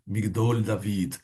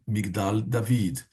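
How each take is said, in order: First: The first word's second vowel is an o sound. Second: The first word's second vowel is an a sound. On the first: Some people say it this way. "Uns pronunciam Migdol David" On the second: This is the more common way. "mas é mais comum Migdal David"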